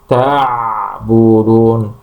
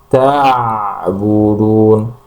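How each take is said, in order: No difference in how they are said.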